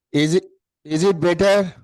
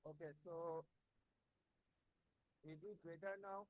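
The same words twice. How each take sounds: First: Said in the usual way. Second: Distant, faint voice off the microphone; speaking from across the room, too quiet; far from the mic. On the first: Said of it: "Yeah, now it is better". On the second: Real, not acted. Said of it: "No, sir, not yet".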